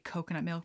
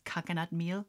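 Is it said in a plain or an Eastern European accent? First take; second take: plain; Eastern European. First: It is said in the speaker's plain accent. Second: It is said in an imitated Eastern European accent.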